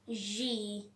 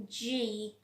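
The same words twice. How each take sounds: First: The letter is said with a vibrating buzz. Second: The letter is said with a vibrating buzz.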